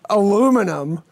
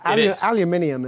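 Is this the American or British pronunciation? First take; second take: American; British. First: It is said with four syllables, American style. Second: It is said with five syllables, British style. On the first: The speaker calls it wrong. "When you guys come up with some aluminum" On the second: The speaker calls it right. "Aluminium is number one"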